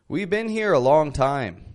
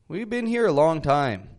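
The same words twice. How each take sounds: The two takes are said the same way.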